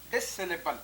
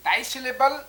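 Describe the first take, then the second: First: डिससिलेबल opened with a short "dis"; second pronunciation variant. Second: डाइसिलेबल opened with a long "dai"; first pronunciation variant. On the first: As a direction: say डिससिलेबल with "dis", not "dai". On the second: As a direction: say डाइसिलेबल with "dai", rhyming with "eye". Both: Shown as a demonstration. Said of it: "डाइसिलेबिक या डिससिलेबिक".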